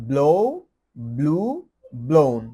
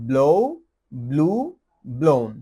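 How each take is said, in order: Both takes have the same delivery.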